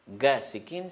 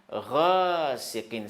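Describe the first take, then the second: First: It starts with a plain hard g sound. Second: It starts with a guttural, throaty gh sound. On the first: The speaker calls it wrong. "c'est faux, c'est pas ga" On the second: The speaker calls it right. "Ça, c'est Ghain"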